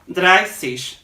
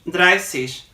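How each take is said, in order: No difference in how they are said.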